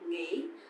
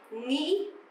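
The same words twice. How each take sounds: First: It is said softly, with a southern accent. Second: It is said with a northern accent.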